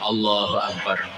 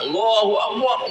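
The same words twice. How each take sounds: First: It is said at a normal, soft volume. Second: It is shouted very loudly.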